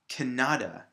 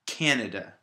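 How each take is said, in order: First: The stress is on the middle syllable. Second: The stress is on the first syllable. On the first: The speaker calls it wrong. "it would be right here in the middle" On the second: The speaker calls it right. "The first syllable is stress"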